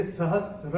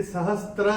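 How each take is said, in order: First: "सहस्र" slowly, s straight into r; correct pronunciation. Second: "सहस्त्र" with a t wedged between s and r; wrong pronunciation. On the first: Teacher shows the correct word, "सहस्र" without t. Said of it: "ये सहस्र है।". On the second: Teacher shows the error to avoid, "सहस्त्र" with added t. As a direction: say "सहस्त्र" with an intrusive t, str. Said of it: "ये सहस्त्र नहीं है". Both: Shown as a demonstration.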